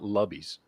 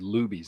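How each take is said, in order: First: The first vowel is short, like in 'rub'. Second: The first vowel is long, like in 'lube'. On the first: The speaker calls it wrong. "not Lubbies" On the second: The speaker calls it right. "technically, it's it's vowel consonant vowel, so it would be Lubies"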